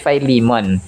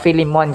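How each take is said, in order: First: The name is said with an American English pronunciation. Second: The name is said with a Tagalog pronunciation. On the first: "kapag sa American English ay Philemon" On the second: "kung sa Tagalog mga customers or sa Ilonggo"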